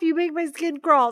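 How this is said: It is said lightly and playfully. The speaker is teasing, as if being tickled. "make it nice and playful"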